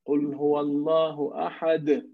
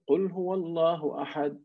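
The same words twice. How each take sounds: First: The final d is released with a bounce. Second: The final d stops flat without a bounce. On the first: The speaker calls it right. "That's qalqala" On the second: The speaker calls it wrong. "that is a mistake"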